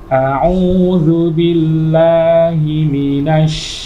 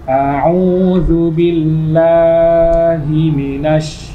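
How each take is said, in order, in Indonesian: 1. Vokal panjang hanya dibaca sebentar. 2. Vokal panjang ditarik terlalu panjang. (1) "Seperti itu" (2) "ini kepanjangan"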